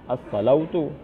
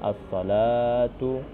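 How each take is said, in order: First: The vowel after L is an 'au' sound. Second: The vowel after L is a long 'a' sound. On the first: The waw letter is wrongly read as a diphthong. The speaker calls it wrong. "dibaca as-salautu" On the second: This is the reading passed down from the Prophet. The speaker calls it right. "dibaca dengan bacaan as-salatu"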